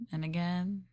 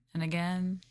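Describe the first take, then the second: No difference in how they are said.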